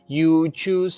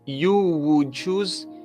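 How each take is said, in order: First: The 'would' is reduced to almost nothing. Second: The 'would' is pronounced fully and clearly.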